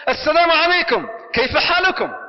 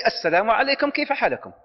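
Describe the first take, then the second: First: Bright, raised and louder greeting; cheerful greeting. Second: Said in the usual way. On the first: Shown as a demonstration. Coming home and greeting the family with a cheerful call. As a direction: greet the family joyfully as you walk in. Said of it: "the first thing he used to say". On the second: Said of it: "Just say".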